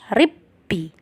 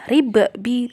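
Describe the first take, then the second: First: The two b sounds merge into one doubled b. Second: The first b is released with an echoing bounce. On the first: The speaker calls it right. "qalqalahnya sudah tidak dibaca lagi" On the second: The speaker calls it wrong. "bukan ribbi"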